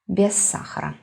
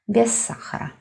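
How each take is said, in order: First: The words merge into one with a lengthened s. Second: The same.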